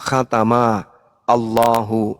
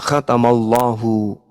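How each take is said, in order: First: The two words are said separately. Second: The two words are run together as one. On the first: "Ini kalau dipisah" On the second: "kaidah membacanya"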